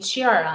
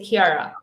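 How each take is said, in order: First: The name is said the American way. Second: The name is said the Italian way, with K.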